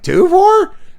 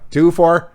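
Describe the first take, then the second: First: It is said in a broken voice, rising like a question. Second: It is said flatly, like a plain statement. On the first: The speaker calls it right. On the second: The speaker calls it wrong.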